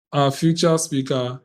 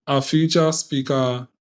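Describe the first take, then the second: No difference in how they are said.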